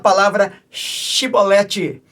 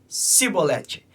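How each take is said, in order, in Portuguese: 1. A palavra começa com som de 'sh'. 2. A palavra começa com som de 's' normal. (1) "eles não conseguiam pronunciar a, a palavra shibolete" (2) "mas eles falavam cibolete"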